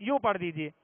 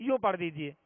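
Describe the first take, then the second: The two takes are said the same way.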